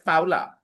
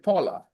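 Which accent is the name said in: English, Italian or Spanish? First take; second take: Spanish; English. First: The name is said with a Spanish accent. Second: The name is said with an English accent. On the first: "A Spanish would definitely pronounce this name as Paula" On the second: "an Englishman will pronounce it Paula"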